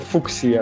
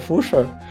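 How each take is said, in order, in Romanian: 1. Ch se pronunță ca sunetul k. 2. Ch se pronunță fără sunetul k. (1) "Eu tot timpul pronunțam asta ca Fuchsia, pentru că CH în engleză de obicei excepții se pronunț ca K" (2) "e așa ne incomod să pronunț asta ca Fuchsia"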